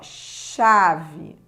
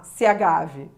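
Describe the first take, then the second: First: The C and H form one single sound. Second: The letters are sounded out separately, including the H. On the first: The speaker calls it right. "esse H, ele não é pronunciado" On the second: The speaker calls it wrong. "se ele fosse pronunciado, essa palavra, ela seria pronunciada da seguinte forma"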